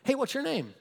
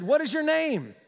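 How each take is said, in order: First: Higher, offhand, unbothered query; casual question. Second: High, commanding question; demanding. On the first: Jesus comes up on the demons, casual unbothered question. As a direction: ask it breezily, not impressed. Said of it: "Jesus comes up on him". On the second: Jesus confronts the demons in a man, acted demand. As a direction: put it as a firm demand. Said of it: "Jesus demanded". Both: Acted.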